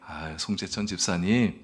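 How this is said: It is said politely and gently.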